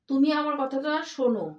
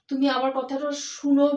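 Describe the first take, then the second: First: The last word starts with an 'o' vowel. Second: The last word starts with an 'u' vowel. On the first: The speaker calls it right. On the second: The speaker calls it wrong.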